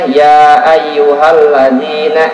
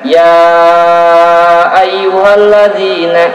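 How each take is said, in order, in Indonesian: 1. Bunyi panjangnya dipendekkan. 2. Bunyi panjangnya ditahan lama.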